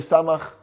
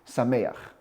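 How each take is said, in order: First: The vowel after the m is 'ah'. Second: The vowel after the m is 'eh'. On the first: This is the custom of one community. "that we say samach, both both the sin and the mem have a patach" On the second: This is the custom of other communities. "unlike the minhag in other communities to say sameach"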